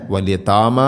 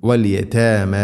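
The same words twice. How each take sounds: First: വൽ യതാമ with a thick, dark "taa-maa"; wrong heavy ta. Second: വൽ യതാമ with a thin fronted "tae-mae"; light ta. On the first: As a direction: weigh down the long aa vowels in യതാമ. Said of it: "എന്നല്ല, കനപ്പിക്കരുത്". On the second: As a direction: keep the t and vowels of യതാമ light. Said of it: "ലൈറ്റായിട്ട് ഉച്ചരിക്കണം". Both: Shown as a demonstration.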